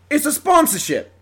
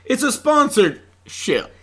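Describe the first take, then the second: First: It is said in a British accent. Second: It is said in a Southern American accent.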